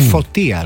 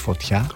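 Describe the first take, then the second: First: The stress falls on the middle syllable. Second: The stress falls on the last syllable. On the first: The speaker calls it right. "Φωτία λέει" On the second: The speaker calls it wrong. "όχι φωτιά"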